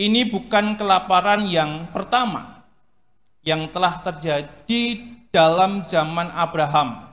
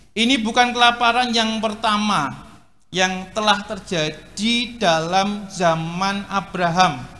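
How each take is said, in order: No difference in how they are said.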